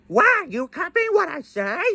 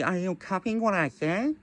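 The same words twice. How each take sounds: First: High squawky parrot copying the words; parrot mimicking. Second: Said in the usual way. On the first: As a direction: parrot echo, pitched way up. Parrot repeats the line.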